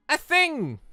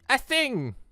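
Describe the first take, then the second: No difference in how they are said.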